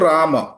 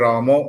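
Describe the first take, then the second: First: The word ends in a plain 'a' vowel. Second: The word ends in a rounded 'o' vowel. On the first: The speaker calls it right. "ಇದು ಓ ತರ ಇಲ್ಲ" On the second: The speaker calls it wrong. "ರಾಮೋ ಅಂತ ಬರುತ್ತೆ ಅವರಿಗೆ"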